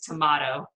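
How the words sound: The middle vowel is an open 'ah' sound. "the British pronunciation is tomato"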